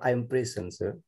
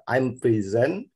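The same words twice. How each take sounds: First: "prison" as PREH-sen, open first e; noun-style pronunciation. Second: "prison" slowly as pri-ZEN; verb-style pronunciation. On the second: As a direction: draw out "prison" with i first and a buzzed z. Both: Shown as a demonstration. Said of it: "which is correct the pronunciation".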